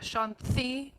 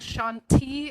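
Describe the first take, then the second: First: The T is a soft, dental sound. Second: The T is a hard, non-dental sound. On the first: The speaker calls it right. "it's a kind of a dental soft T" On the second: The speaker calls it wrong. "instead of saying Shanti"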